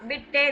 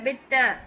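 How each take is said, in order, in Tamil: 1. வார்த்தை 'eh' ஒலியில் முடிகிறது. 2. வார்த்தை 'oo' ஒலியில் முடிகிறது. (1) "இல்ல"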